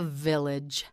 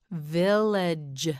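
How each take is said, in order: First: Said in the usual way. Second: "Village" stretched slowly over both syllables; drawn out. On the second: Shown as a demonstration. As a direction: linger on each sound of "Village". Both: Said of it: "you say it".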